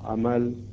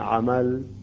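The two takes are said the same way.

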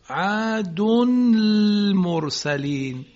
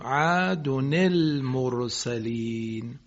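First: The first word ends without a linking i vowel. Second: The first word ends in -nin, linking the words. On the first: The speaker calls it wrong. "خوندنش سخته یا غیر ممکنه" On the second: The speaker calls it right. "اون نون ساکنه رو کسره میدیم"

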